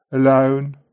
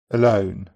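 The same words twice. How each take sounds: First: Alone with an open back O start; Brummie Alone. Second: Said in the usual way. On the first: Shown as a demonstration. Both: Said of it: "Brummies tend to start O, with the tongue back".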